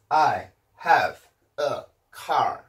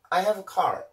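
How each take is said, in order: First: Each word is said separately with breaks. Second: The words run together without any breaks. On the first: The speaker calls it wrong. "단어별로 발음을 해보면" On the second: The speaker calls it right. "이런 식으로 쭉 붙여서 발음을 해주는데"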